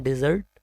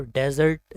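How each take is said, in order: First: डेजर्ट with a short "i" first, "di-ZURT"; dessert pronunciation. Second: डेजर्ट with an open "e" first, "DEZ-urt"; desert pronunciation. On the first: Teacher contrasts the sweet with arid land, dessert pronunciation. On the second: Teacher contrasts arid land with the sweet, desert pronunciation. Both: Shown as a demonstration. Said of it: "दोनों ही अलग-अलग".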